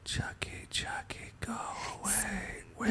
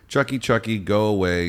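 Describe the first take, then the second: First: It is whispered like a creepy child. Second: It is spoken in a normal voice.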